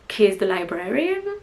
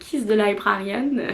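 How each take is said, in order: First: It is said attempting a native English accent. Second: It is said with a strong French accent. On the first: "je ne peux pas le dire avec un vrai accent. Je vais essayer" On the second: "J'arrive à le dire avec un accent franchouillard"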